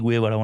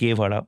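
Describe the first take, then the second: First: The first syllable is gue, with a w glide. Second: The first syllable is ge, with no glide.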